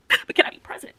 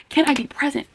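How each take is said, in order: First: Whisper. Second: Said in the usual way. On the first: Acted. Asking herself, whispered then voiced.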